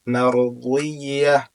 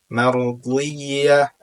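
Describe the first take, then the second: The two takes are said the same way.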